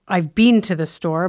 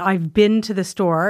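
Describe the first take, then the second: First: Been falls between bin and bean, Canadian style. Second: Been is said like bin, American style. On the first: "Canadians, I think we say, ... maybe somewhere in the middle of those two" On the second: "so Americans say bin"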